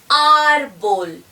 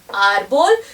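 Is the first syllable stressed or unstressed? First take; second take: stressed; unstressed. First: The stress is on the first syllable. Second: The stress is not on the first syllable.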